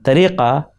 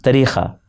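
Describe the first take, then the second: First: The middle consonant is a deep back q. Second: The middle consonant is a breathy kh.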